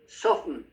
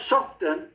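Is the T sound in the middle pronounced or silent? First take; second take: silent; pronounced. First: The T in the middle is silent. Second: The T in the middle is pronounced. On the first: The speaker calls it right. "Silent T" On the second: The speaker calls it wrong. "It's not soften"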